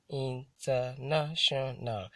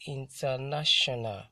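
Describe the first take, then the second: First: "international" slowly broken into separate syllables; slow, segmented "international" for counting syllables. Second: Said in the usual way. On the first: Shown as a demonstration. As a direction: sound out "international" one syllable at a time. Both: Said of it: "That's a five syllable word".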